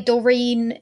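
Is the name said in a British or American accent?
American. The name is said in an American accent.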